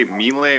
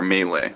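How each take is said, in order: First: "melee" with a long ee in the first syllable; MEE-lay pronunciation. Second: "melee" with an ay sound in the first syllable; MAY-lay pronunciation. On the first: Host checking how to say a word, "melee" as MEE-lay. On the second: Host offering the other option, "melee" as MAY-lay. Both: Shown as a demonstration. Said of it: "I don't know why I can never remember this".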